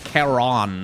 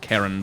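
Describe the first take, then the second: First: It is pronounced differently from the name Karen. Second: It is pronounced like the name Karen. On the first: The speaker calls it right. "technically it's Charon" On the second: The speaker calls it wrong. "not Karen"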